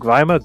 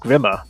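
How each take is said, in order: First: The first vowel rhymes with 'time'. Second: The first vowel rhymes with 'him'. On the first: The speaker calls it right. "it's from the word grime" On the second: The speaker calls it wrong. "Not from the word grim"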